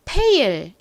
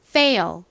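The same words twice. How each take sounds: First: The word begins with a plain p sound. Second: The word begins with a strong f sound. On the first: The speaker calls it wrong. "그냥 피읍 소리로 fail 이렇게 발음하시면 안 되고요" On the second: The speaker calls it right. "세게 발음해주세요. fail, fail 이렇게요"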